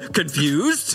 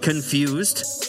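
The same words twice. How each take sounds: First: The word is said with a questioning inflection. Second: The word is said flatly, like a statement.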